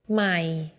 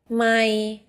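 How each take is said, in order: First: The syllable is said on a low tone. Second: The syllable is said on a level middle tone. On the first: It means new. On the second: It means mile.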